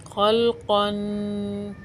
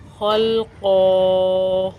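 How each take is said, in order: First: खलक़न very slow, the न hummed through the nose; tanween with ghunna. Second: खलक़ो slow and louder, final vowel held one alif; pausal long ending. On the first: Teacher shows the running form with nasal ghunna. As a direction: let खलक़न end in a held nasal hum. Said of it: "वक्फ़ की हालत में जो इसके ऊपर तनवीन है". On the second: Teacher contrasts the pausal form, long held vowel. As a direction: stretch खलक़ो out, full and long at the end. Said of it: "वक्फ़ की हालत में ... अलिफ से बदल जाएगी". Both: Shown as a demonstration.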